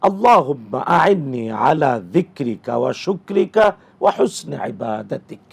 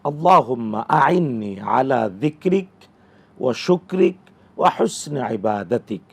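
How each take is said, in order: First: It is said in one continuous, linked flow. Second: It is broken up with pauses between parts. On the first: "একসাথে যদি বলে" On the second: "থেমে থেমে বললে এইভাবে"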